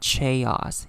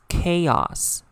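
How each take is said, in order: First: The word begins with a 'ch' sound. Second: The word begins with a 'k' sound. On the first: The speaker calls it wrong. "not chaos" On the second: The speaker calls it right. "the C H here is pronounced as k. So it's chaos"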